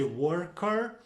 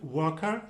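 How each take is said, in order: First: The r sounds are clearly and strongly pronounced. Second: The r sounds are soft and barely heard. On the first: "in America we like to uh, make those R's heard" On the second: "in British English it would sound a little bit softer"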